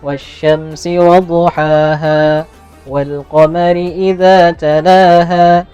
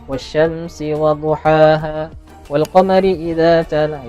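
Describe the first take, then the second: First: The pace stays the same from start to end. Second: Some parts speed up, so the pace varies. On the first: The speaker calls it right. "jadi sama temponya sebenarnya sampai sampai tuntung" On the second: The speaker calls it wrong. "itu ada ada ada yang belaju sedikit. Nah, itu temponya kada stabil"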